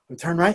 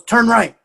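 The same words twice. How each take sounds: First: Said in the usual way. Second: Higher-pitched retold instruction; higher, matter-of-fact quoted command; confident child's direction. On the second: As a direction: imitate a kid confidently giving directions. Child giving directions in story.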